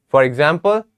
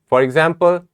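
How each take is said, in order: Both takes have the same delivery.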